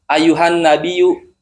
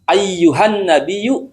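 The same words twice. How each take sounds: First: The y sound is short and not doubled. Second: The y sound is held and doubled. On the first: The speaker calls it wrong. "nggak dibaca begini" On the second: The speaker calls it right. "Kalau nggak ada tasdidnya itu nggak sah"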